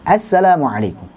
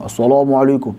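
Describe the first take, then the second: First: "Assalamualaikum" with clear open A vowels; "Assalamualaikum" with plain open A; correct open vowels. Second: "Assalamualaikum" with rounded O vowels, "asolomualikum"; "Assalamualaikum" bent into O sounds; wrong rounded vowels. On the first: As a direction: say it the right way, jaw dropped on each A. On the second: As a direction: demo the wrong way, lips pushed round on every A. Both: Shown as a demonstration.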